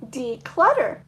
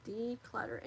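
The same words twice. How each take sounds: First: Loud card reveal. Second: Said in the usual way. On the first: Real, not acted. Reading card aloud.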